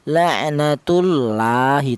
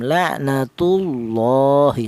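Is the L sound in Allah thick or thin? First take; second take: thin; thick. First: The L in Allah is thin and light. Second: The L in Allah is thick and heavy. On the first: The speaker calls it wrong. "dibaca tarkik atau tipis, tidak boleh" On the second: The speaker calls it right. "yang benar ada tafhim"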